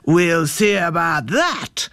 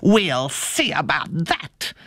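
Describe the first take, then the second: First: Slow, menacing bear growl; big bear taking up a challenge. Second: Slow wolfish snarl; storybook wolf accepting a challenge. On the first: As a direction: growl the threat out slowly. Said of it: "growled the bear". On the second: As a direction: snarl the threat out slowly. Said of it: "snarled the wolf". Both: A narrator's reading.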